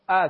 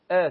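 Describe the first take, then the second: First: "ا" as an open Persian "a" like in cat; Persian open fatha. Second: "ا" as a thin vowel leaning towards e; Arabic thin fatha. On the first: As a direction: open the vowel "ا" the Persian way, as a full a. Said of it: "در زبان فارسی، اه، فتح ما به صورت". («ا» با فتحهٔ باز فارسی) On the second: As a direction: narrow the vowel "ا" to a light eh-like fatha. («ا» با فتحهٔ نازک عربی) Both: Shown as a demonstration.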